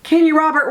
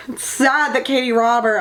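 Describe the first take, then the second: First: Raised, carrying call. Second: Said in the usual way. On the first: Real, not acted. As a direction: shout the name across the room. Calling out to the author. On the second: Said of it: "Katie Robert, where are you?".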